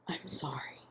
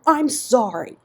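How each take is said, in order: First: Soft, strangled whisper; choked whisper. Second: Loud, high, blurted apology; desperate outburst. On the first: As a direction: barely get it out, choked. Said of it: "Ian repeated in a choked whisper". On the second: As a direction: erupt with it, desperate. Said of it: "Ian erupted desperately". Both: A narrator's reading.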